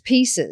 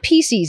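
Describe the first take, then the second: First: It ends with a soft 'siz' sound. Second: It ends with a buzzing 'seez' sound. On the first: The speaker calls it right. "it's pieces" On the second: The speaker calls it wrong. "not pieces, ... It sounds like feces"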